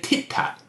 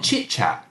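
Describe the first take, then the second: First: The syllables start with a t sound. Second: The syllables start with a ch sound. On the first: This is how a young child might say it. "That's a very typical child way of speaking" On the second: This is the intended adult form. "instead of"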